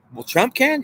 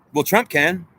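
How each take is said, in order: First: High, rising disbelief on can; incredulous question. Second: Said in the usual way. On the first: Acted. Questioning his own answer, a high rising disbelief.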